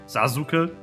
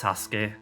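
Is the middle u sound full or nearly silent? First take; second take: full; nearly silent. First: The middle u is fully pronounced. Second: The middle u is nearly silent. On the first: The speaker calls it wrong. "with a like full U sound" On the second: The speaker calls it right. "His name is Sasuke"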